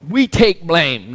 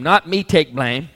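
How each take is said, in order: First: Slow, heavy stress on "We" in "We take blame"; slow and weighty, stressing "We" as a shared duty. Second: Slow, rising stress on "not" in "not me take blame"; slow and deliberate, "not" lifted and rising. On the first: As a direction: lean hard on "We", draw it out. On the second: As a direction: punch "not", let "me" follow slowly. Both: Shown as a demonstration.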